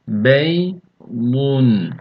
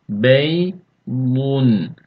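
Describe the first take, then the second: No difference in how they are said.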